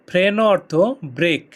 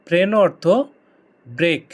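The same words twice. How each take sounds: The two takes are said the same way.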